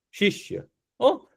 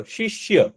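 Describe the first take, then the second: First: શિષ્ય said as a soft breathy whisper; hushed whisper. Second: Said in the usual way. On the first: Shown as a demonstration. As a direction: whisper શિષ્ય as if sharing a secret. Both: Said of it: "બોલો તો, શિષ્ય".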